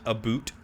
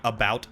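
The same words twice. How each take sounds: First: "a boot" for about, with an oo vowel. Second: Said in the usual way. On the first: Shown as a demonstration. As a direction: say about as "a boot", rhyming with suit. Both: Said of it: "the whole stereotypical".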